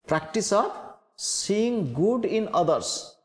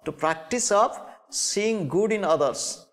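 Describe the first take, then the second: First: "Practice of seeing good in others" slowed right down, "good" weighted; slow emphatic repeat. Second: Said in the usual way. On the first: Shown as a demonstration. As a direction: lay out each word of "Practice of seeing good in others" deliberately.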